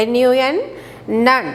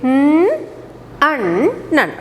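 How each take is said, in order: First: Spelling out N U N with letter names, then nun; name each letter, then say nun. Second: N, un, nun said as separate sounds with pauses; phonic sounds. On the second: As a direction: sound out each part for the children. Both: Shown as a demonstration. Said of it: "With phonic sound".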